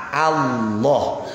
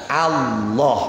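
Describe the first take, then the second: Both takes have the same delivery.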